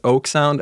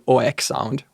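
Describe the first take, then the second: First: The first vowel glides, as in 'oak'. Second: The first vowel is pure and steady. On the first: "as the tree oak" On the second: "without any kind of diphthong on the first syllable"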